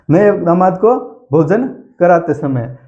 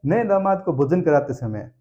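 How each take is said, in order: First: "नए दामाद को भोजन कराते समय" loud and slow, phrase by phrase; slow emphatic repetition. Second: Said in the usual way. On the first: Shown as a demonstration. Answer repeated slowly for students. ("नए दामाद को भोजन कराते समय" ज़ोर से, रुक-रुक कर)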